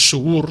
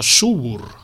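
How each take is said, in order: First: The stress is on the last syllable. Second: The stress is on the first syllable. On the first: The speaker calls it wrong. "no és Subur" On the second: The speaker calls it right. "sinó Subur. ... és plana. Com casa"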